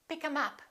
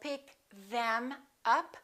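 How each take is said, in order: First: The th sound is dropped, giving 'em. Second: The th sound in them is fully pronounced. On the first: The speaker calls it right. "We drop this T H" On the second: The speaker calls it wrong. "we don't say"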